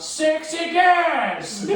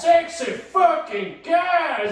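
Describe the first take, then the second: First: High, loud, slow laughing yell; retold yell. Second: High, loud, drawn-out shout; mock yell. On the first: Kids heckling the teacher with a loud yell. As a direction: stretch it out and shout it. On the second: Kids yelling at the teacher in class. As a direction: belt it out slowly like a heckle. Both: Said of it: "we would just yell out".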